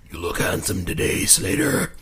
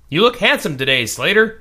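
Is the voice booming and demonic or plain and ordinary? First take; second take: demonic; plain. First: It is said in a deep, booming, demonic voice. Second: It is said in a plain, ordinary reading voice. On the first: The speaker calls it right. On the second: The speaker calls it wrong.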